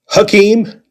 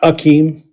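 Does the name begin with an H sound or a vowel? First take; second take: H sound; vowel. First: The name begins with an H sound. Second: The name begins with a vowel sound. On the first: The speaker calls it right. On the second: The speaker calls it wrong.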